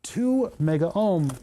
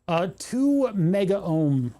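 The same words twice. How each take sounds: First: "two" stressed in "Two mega ohm", read stiffly; imitating an AI voice stressing "two"; mock odd emphasis. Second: "two" punched in a slow, robotic read of "two mega ohm"; slow mock-assistant read, "two" stressed; odd emphasis. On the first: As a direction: lean on "two" like a voice assistant. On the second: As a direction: hit "two" like a stiff voice assistant reading a label. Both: Shown as a demonstration. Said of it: "Why are you putting the emphasis on the".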